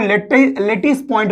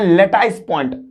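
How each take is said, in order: First: The second syllable has a short 'i' vowel. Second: The second syllable has an 'eye' diphthong. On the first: "कुछ लोग लेटिस point बोलते हैं" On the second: "तो कुछ लोग लोग लेटाइस point बोलते हैं"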